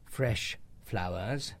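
It is said in modern English, two syllables.

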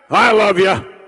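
A loud, barking, commanding drill sergeant voice. Love comes with demands and discipline. "God is a divine drill instructor with a voice that sounds like this"

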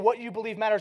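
The stress is on believe.

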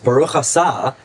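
The last word has an s sound.

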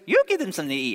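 It is said in a Mickey Mouse voice.

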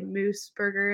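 It is said with an anglicized English pronunciation. "But I bastardized it for the Canadians listening"

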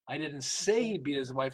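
The stress is on "say".

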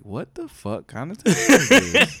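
It is voiced as a white speaker.

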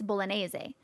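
It is said with an Italian pronunciation. "but like in Italian, it's bolognese"

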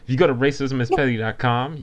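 It is said in a confident, assertive way.

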